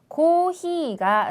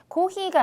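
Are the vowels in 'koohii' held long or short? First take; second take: long; short. First: The vowels in koohii are held long. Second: The vowels in koohii are cut short. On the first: The speaker calls it right. "좀 더 길게 고히가 라고 네 박자로" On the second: The speaker calls it wrong. "고히라고 좀 많이 발음,발음들을 하시는데 고히가 아니라"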